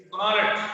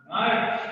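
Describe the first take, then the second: First: "knowledge" in an Indian accent, K sounded. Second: "knowledge" with the K silent. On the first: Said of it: "But as per Indian accent, it is". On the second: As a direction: say "knowledge" by the rules, starting on the N. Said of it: "as per the rules, you should pronounce this one". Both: Shown as a demonstration.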